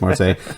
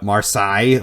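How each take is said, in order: First: It is said as the plain usual Marseille. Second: It sounds like a blend of Versailles and Marseille. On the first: The speaker calls it right. "but I think it's Marseille" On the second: The speaker calls it wrong. "he pronounces it uh, Marseille, like he's blended Versailles and Marseille together"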